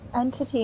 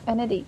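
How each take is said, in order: First: The T in the middle is pronounced clearly. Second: The T in the middle is pronounced softly. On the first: The speaker calls it right. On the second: The speaker calls it wrong. "not entity"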